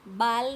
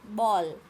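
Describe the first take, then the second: First: The vowel is an open, unrounded 'aa'. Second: The vowel is said with rounded lips. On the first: The speaker calls it wrong. "बाल नहीं बोलना है आपको" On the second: The speaker calls it right. "मुंह थोड़ा घुमाना पड़ेगा"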